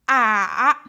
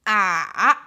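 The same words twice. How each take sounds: The two takes are said the same way.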